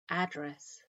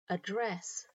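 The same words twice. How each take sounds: First: It is said with the American pronunciation. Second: It is said with the British pronunciation. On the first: "address for Americans" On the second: "The noun form of address for Brits"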